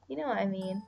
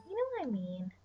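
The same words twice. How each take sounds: First: Said in the usual way. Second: Higher playful repeat of the line; silly put-on voice. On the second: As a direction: say it again in a goofy voice.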